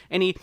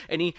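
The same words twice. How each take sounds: The two takes are said the same way.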